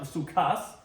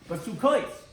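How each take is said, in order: First: The final vowel sounds like 'ah'. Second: The final vowel sounds like 'oh'. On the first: The word is read as singular. The speaker calls it wrong. "not basukas" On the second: The word is read as plural. The speaker calls it right. "we pronounce it in the plural"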